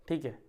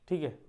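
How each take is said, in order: No difference in how they are said.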